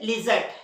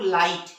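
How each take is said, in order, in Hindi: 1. g और h की ध्वनि ज़ोर से बोली जाती है। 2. g और h की ध्वनि छोड़ दी जाती है। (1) "इसे हम क्या पढ़ना चाहिए वैसे? लिजट, लेकिन लिजट पढ़ते हैं क्या? नहीं" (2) "वहां जी एच साइलेंट है"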